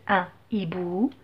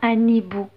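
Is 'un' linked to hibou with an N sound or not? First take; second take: unlinked; linked. First: No N sound links un to hibou. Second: An N sound links un to hibou. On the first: The speaker calls it right. "il interdit la liaison" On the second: The speaker calls it wrong. "je dis pas un hibou. Non, c'est faux"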